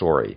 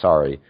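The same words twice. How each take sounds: First: It is said in a Canadian accent. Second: It is said in an American accent. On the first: "Canadians say sorry" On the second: "when Americans say sorry, we say sorry"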